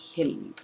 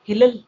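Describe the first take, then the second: First: The word has one short, plain L. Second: The L is said twice, adding a syllable. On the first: The speaker calls it right. "ಇದು ಸರಿಯಾದ method" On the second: The speaker calls it wrong. "Double time ಹೇಳ್ಬಿಡೋಣ"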